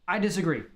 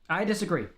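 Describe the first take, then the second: No difference in how they are said.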